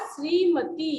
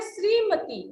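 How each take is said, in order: First: श्रीमती drawn out as "shree-ma-TEEE"; long final ee. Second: श्रीमती with a brief ending, "shreemati"; short final i. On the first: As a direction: hold the last vowel of श्रीमती. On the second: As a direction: say श्रीमती briskly with a short last vowel. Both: Shown as a demonstration. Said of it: "हमेशा बड़ी ई की मात्रा".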